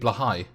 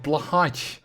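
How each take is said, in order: First: The name is said with a Dutch pronunciation. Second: The name is said with an American English pronunciation. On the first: "In Dutch, it would be" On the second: "I'm probably mispronouncing it"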